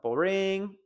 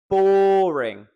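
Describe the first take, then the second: First: The stress is on the second syllable. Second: The stress is on the first syllable. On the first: The speaker calls it wrong. "Not boring" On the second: The speaker calls it right. "It's the first syllable"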